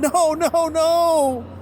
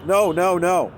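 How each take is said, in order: First: It is said with expressive, emotional inflection. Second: It is said flatly with no inflection. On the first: The witness is emotionally refusing. The speaker calls it right. "Jane Doe one saying on the stand" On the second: The words are simply being read back. The speaker calls it wrong. "reading it without any inflection at all"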